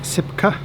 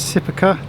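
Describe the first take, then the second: First: The name is said in its shorter local form. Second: The name is said in its full, non-local form.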